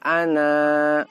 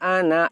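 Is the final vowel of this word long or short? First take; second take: long; short. First: The final vowel is drawn out long before stopping. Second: The final vowel is short, running straight on. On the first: The reader stops on this word. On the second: The reader continues without stopping.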